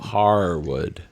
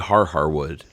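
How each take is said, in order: First: The name starts with one long 'haar' syllable. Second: The name starts with a doubled 'har' syllable. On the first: "not Har Har, but H A A R Wood" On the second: "I say Har Harwood"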